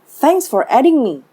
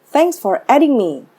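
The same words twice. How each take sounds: Both takes have the same delivery.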